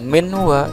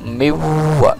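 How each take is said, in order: First: The n sound is clearly pronounced before w. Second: The n sound merges straight into the w. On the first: The speaker calls it wrong. "Bukan minwa" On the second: The speaker calls it right. "tetapi miwa. Masuk ya, langsung langsung ke waw"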